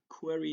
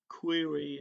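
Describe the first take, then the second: First: The word is said with a Persian pronunciation. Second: The word is said with an English pronunciation. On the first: "the query is the Persian pronunciation" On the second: "when it comes to English"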